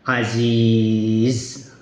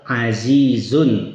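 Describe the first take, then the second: First: The word ends on a bare 'z', without 'un'. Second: The word ends with the nasal 'un' ending. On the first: The reader stops at this word. "kita berhenti di situ maka bacanya aziz" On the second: The reader continues without stopping. "Misal azizun"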